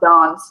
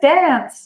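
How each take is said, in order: First: The word has a British-like South African pronunciation. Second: The word has an American pronunciation. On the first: "I will say" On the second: "she has an American accent"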